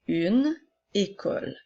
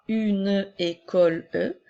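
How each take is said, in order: First: The final e of école is silent. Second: The final e of école is pronounced aloud. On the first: The speaker calls it right. "mais bien" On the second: The speaker calls it wrong. "nous ne dirons pas"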